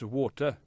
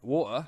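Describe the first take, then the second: First: It is said in a Welsh accent. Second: It is said in a London estuary accent.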